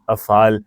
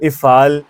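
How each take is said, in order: First: The word begins with an 'a' vowel. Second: The word begins with an 'i' vowel. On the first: The speaker calls it right. "तो ये सारे जमा हैं" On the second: The speaker calls it wrong. "ऐसे नहीं बोलेंगे"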